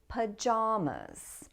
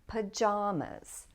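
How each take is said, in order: No difference in how they are said.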